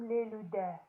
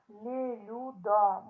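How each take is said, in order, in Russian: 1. Слово заканчивается гласным 'e'. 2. Слово заканчивается гласным 'a'.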